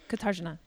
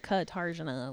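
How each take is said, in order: First: The name is said quickly, in a Polish manner. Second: The name is said in an American manner. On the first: This is how the name's owner says it. The speaker calls it right. "She says it like Katarzyna" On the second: This is how Americans say the name. The speaker calls it wrong. "she doesn't say it like Katarzyna. ... Like an American"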